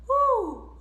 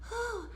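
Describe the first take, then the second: First: The sound is clean and clear. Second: The sound is airy and breathy. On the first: The speaker calls it right. "Try to make this a clean and clear sound" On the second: The speaker calls it wrong. "not a breathy one"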